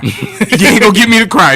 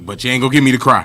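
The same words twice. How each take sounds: First: Louder, higher, laughing through it; laughing defiance, higher and louder; laughing repeat. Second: Said in the usual way. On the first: Shown as a demonstration. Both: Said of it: "I was about to sing the hook".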